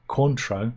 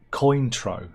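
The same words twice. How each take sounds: First: "Cointreau" as KWAHN-troh with nasal French vowel; "Cointreau" French-style kwahn-troh; correct pronunciation. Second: "Cointreau" slow as COIN-troh; "Cointreau" said slowly with coin sound; wrong pronunciation. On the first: "Cointreau" demo of the correct French way, KWAHN-troh. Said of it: "Cointreau is pronounced". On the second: "Cointreau" showing the wrong English way, slow COIN-troh. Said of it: "not Cointreau". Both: Shown as a demonstration.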